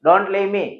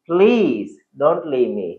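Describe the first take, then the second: First: Said in the usual way. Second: Slow, drawn-out plea; pleading request. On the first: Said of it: "boyfriend बोला". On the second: Shown as a demonstration. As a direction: beg him gently to stay. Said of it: "request से बोलेगा".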